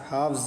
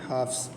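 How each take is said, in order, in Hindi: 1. शब्द का अंत z की आवाज़ से होता है। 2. शब्द का अंत s की आवाज़ से होता है। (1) "नहीं" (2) "ऐस की आवाज़ निकालेंगे"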